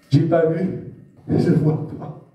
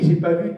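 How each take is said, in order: First: Lightly voiced stubborn doubter, slow and half-whispered on "je vois pas"; mocking unbeliever. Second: Said in the usual way. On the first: Preacher imitating unbelieving friends, mild mockery. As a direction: mimic a blind skeptic's denial.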